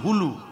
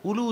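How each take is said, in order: First: The word begins with an h sound. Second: The word begins directly with a vowel sound. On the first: The speaker calls it right. "উচ্চারণটা হবে হুলু" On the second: The speaker calls it wrong. "উলু উচ্চারণ হবে না"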